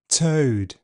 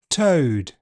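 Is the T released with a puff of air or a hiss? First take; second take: hiss; puff of air. First: The T is released with a hissing friction. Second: The T is released with a puff of air. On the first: "affricated, with a fricative release" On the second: "aspirated, with a puff of air"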